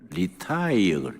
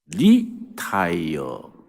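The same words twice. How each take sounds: First: The stress is on the second syllable. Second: The stress is on the first syllable. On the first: Stopping work for good. "목회 은퇴하는 걸 리타이어" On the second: Changing the tires and starting again. "액센트를 앞에 붙이면 의미가 달라집니다"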